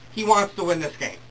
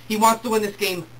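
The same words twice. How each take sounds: The two takes are said the same way.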